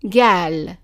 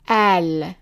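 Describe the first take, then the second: First: The word begins with a hard g sound. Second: The word begins with a glottal stop. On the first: This is the form used in some regions. "the qaf is pronounced as a g sound" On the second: This is the form used in Lebanon and Egyptian cities. "pronounced as an a, for example, in Lebanon or in the cities in Egypt"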